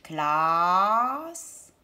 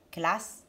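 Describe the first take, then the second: First: CLASSE with a long A sliding up; drawn-out vowel. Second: Said in the usual way. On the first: Shown as a demonstration. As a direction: stretch the A in CLASSE, rising. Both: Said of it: "Est-ce que j'entends A".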